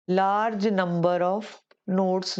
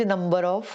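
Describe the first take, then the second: First: Very slow, word by word; slow dictation. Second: Said in the usual way. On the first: Shown as a demonstration. Teacher dictating the phrase to students, very slowly. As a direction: spell it out for note-taking.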